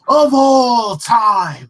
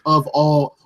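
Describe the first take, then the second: First: OF ALL TIME belted out high, loud and very slow; "of all time" held long and loud, falling at the end; drawn-out emphasis. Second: Said in the usual way. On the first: Real, not acted. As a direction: stretch "of all time" into a big proclamation. Repeats phrase for grand emphasis.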